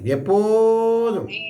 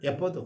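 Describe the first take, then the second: First: The word is stretched out with a raised voice. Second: The word is said short and flat. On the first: The speaker calls it right. "சப்தம் உயர்த்தி நீட்டணும்" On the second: The speaker calls it wrong. "எப்போதும் இல்லை"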